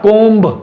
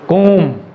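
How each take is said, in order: First: It ends with an audible b sound. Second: It ends in an m sound with no b. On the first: The speaker calls it wrong. "Not कोम्ब, ब नहीं आएगा" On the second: The speaker calls it right. "So कोम"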